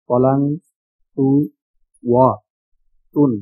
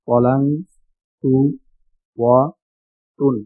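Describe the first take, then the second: No difference in how they are said.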